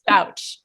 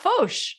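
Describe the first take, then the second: First: The surname is said the plain English way. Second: The surname is said the French way. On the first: The speaker calls it right. "but it's it's Fauch" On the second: The speaker calls it wrong. "I want to make everyone's last name French"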